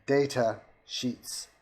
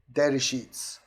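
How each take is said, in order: First: Slow, separated words for a machine; slow repeated command. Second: Louder command at an ordinary pace. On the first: Trying the software once more, slow separated command. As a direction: draw out each word as a command. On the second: Asking the software for data sheets, louder voice command. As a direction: call it out to the machine. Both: Shown as a demonstration.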